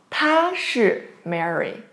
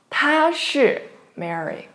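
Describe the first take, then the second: No difference in how they are said.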